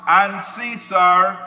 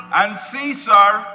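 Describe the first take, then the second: No difference in how they are said.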